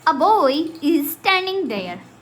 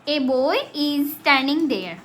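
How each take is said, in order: First: The article is a short reduced 'uh' sound. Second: The article is a full 'ay' sound. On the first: "modern type जो English है, उसमें हम कैसे pronounce करते हैं" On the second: "बच्चे आपने देखा होगा कैसे इसको पढ़ते हैं, ऐसे पढ़ते हैं"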